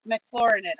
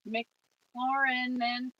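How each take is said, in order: First: Said in the usual way. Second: McLaurinen drawn out slowly, syllable by syllable; unsure slow try at McLaurinen; slow name attempt. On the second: Real, not acted. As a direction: sound out McLaurinen carefully, very slow. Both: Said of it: "I messed up your name".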